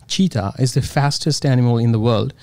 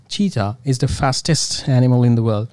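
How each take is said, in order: Both takes have the same delivery.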